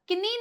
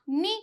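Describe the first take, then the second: First: The initial k sound is pronounced. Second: The initial k sound is silent. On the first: The speaker calls it wrong. "किनी नहीं कहलाएगा" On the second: The speaker calls it right. "नी कहलाएगा"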